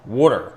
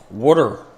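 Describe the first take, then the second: First: Water said the standard way, a clear t; careful trained water; water with a proper a and t. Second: Water said the Pennsylvania way, wooder; water drawn out like wooder; Berks County water. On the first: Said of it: "I've had to train myself diligently to say water". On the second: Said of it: "as they say in Berks County, Pennsylvania". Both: Shown as a demonstration.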